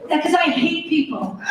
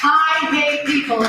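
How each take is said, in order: First: Said in the usual way. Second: Slow, weighted "I hate people."; emphatic declaration. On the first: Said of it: "said to Joey". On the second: Shown as a demonstration. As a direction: lean on each word, slowly. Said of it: "Can I just say this?".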